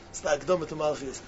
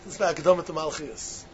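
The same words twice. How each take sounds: The two takes are said the same way.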